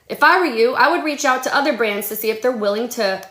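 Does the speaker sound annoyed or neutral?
neutral. It is read in a plain, neutral tone. It is sincere, friendly advice. "this is how I said it"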